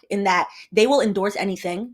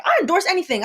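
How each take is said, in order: First: Said in the usual way. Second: High, bright bragging tone; mock Shaq voice. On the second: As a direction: say it like a proud spokesman. Imitating Shaq quote.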